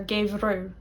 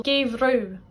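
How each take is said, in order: First: Gave rue, light palatal r; slender r. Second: Gave rue with a slender palatal r. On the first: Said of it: "like we had winter". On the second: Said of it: "For example". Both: Shown as a demonstration.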